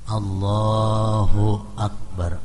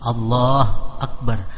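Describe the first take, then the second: First: The 'hu' is said with a short, light vowel. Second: The 'hu' vowel is dropped entirely. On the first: The speaker calls it right. "dammah yang ringan tanpa bersangatan" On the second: The speaker calls it wrong. "Hu-nya jangan dimatiin"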